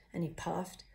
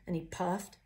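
No difference in how they are said.

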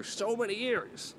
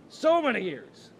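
First: High, drawn-out mock yearning; hammed-up longing. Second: Loud, high, drawn-out mock wail; over-dramatic stretched cry, pitched way up; hammed-up wail. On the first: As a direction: stretch the words out in a high voice. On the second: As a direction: belt it out slowly in a high voice. Repeats it louder for comic drama.

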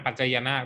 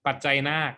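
First: ปัจจัยนาค with an added linking "ยะ"; wrong reading. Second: ปัจจัยนาค in three syllables, ปัด-ไจ-นาก; correct reading. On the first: Teacher warning students off the wrong reading of ปัจจัยนาค. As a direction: say ปัจจัยนาค as ปัด-ไจ-ยะ-นาก. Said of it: "ไม่อ่านปัจจัยนาคด้วยซ้ำนะฮะ". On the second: Teacher counting syllables for students, correct reading of ปัจจัยนาค. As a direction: say ปัจจัยนาค with no linking "ยะ". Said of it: "ไม่อ่านปัจจัยนาคด้วยซ้ำ". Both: Shown as a demonstration.

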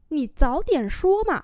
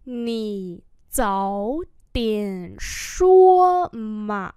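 First: Said in the usual way. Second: Very slow, stretched syllables; slow model reading. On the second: Shown as a demonstration. Teacher repeating a phrase for learners, very slowly. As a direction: say it one syllable at a time.

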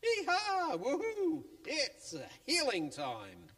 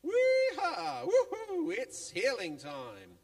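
First: High, loud yee-haw cheer; gleeful cheer rising to a squeal; excited whoop. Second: Very high, loud cheer, laughing through it; giddy squealing cheer breaking into laughter; laughing whoop. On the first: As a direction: whoop like cowboys off to a party. Friends cheering on their way. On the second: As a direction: whoop and laugh as you run. Friends cheering, running to Jesus. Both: Acted.

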